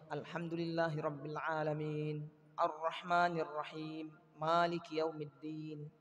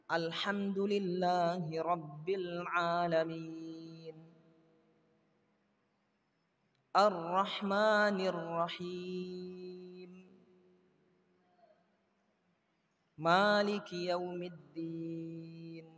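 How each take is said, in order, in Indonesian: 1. Ayatnya disambung tanpa jeda. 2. Ada jeda setelah setiap ayat. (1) "Kalau mau disambung tidak ada jeda" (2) "Yang afdol berhenti di setiap ah, ayat"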